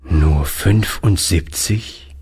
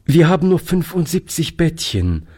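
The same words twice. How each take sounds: First: Slow, sad question on Nur fünfundsiebzig, rising; the old man repeats the number, slow and saddened. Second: Said in the usual way. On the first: A narrator's reading. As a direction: let the number sink in, dismayed. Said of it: "wiederholte der Alte traurig".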